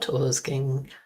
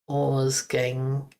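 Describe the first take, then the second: First: The word ends with an audible hard g. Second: The word ends in a plain ng sound. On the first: The speaker calls it wrong. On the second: The speaker calls it right. "No G at the end"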